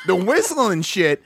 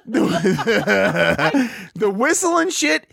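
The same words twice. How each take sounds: First: Said in the usual way. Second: High, slow words through laughter; laughing. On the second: Real, not acted. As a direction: laugh while getting it out. Repeats the phrase while laughing.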